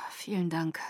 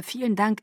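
First: Unvoiced, breathy whisper; a dry whispered thank-you. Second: Said in the usual way. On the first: Bella whispers her thanks to Felix, coolly unvoiced.

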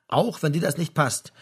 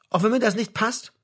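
First: "Auch wenn dir das nicht passt" as a firm statement; firm confirmation. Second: "Auch wenn mir das nicht passt?" high, as a question; questioning, double-checking. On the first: Father confirming it to his son, firm. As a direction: confirm it, "Auch" stressed, falling to the end. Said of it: "bekräftigte sein Vater". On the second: Son double-checking with his father, questioning. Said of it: "sagte Frank zur Sicherheit noch einmal". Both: A narrator's reading.

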